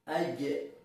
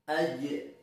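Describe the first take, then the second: First: The j sound is soft and smooth. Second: The j sound is soft and smooth.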